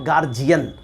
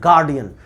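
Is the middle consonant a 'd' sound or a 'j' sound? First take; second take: j; d. First: The middle consonant is a 'j' sound. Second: The middle consonant is a 'd' sound. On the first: The speaker calls it wrong. "It's not गार्जियन" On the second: The speaker calls it right. "It's गार्डियन"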